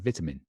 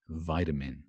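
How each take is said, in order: First: Said in a British accent, with a clear t. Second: Said in an American accent, with a d-like t. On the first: "We say vitamin" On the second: "an American would say something more like vitamin"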